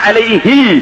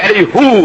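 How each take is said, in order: First: The word ends with an 'ee' vowel. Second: The word ends with an 'oo' vowel. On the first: This is the usual reading. "സാധാരണ അലൈഹി എന്നാണ്" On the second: This is the reading kept in one special place. "ഒരു സ്ഥലത്ത് അലൈഹു"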